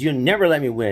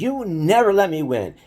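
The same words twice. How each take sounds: First: High, sulky complaint repeated; pouty protest after losing again; whiny kid brother. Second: High, sulky complaint of a beaten little brother; pouty protest after losing again; whiny kid brother. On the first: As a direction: whine it once more, still sore. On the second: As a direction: whine it like a sore loser. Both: Retold or imitated. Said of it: "he would get so mad".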